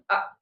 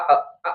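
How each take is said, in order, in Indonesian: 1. Bunyinya berhenti dengan bersih tanpa gema. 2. Bunyinya memantul dengan gema seperti cegukan. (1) "Tapi dia adalah berhenti" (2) "Kalau dia mantul jadi kayak orang cegukan"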